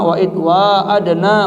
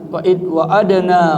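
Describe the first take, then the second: First: The vowel after wa is drawn out long. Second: The vowel after wa is kept short. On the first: "Yang pertama" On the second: "dibaca dengan pendek"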